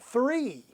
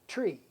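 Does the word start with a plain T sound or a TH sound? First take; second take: TH; T. First: The word starts with a TH sound. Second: The word starts with a plain T sound. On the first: This is how the speaker's group says it. "they would laugh at us for pronouncing it three" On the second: This is how everyone in Guyana says it. "everyone in the country pronounced it tree"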